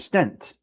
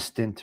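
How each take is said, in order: First: The vowel sounds like 'eh', as in 'bet'. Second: The vowel sounds like 'ih', as in 'bit'. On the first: The speaker calls it right. "A stent" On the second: The speaker calls it wrong. "not stint. I'm saying it with my New Jersey"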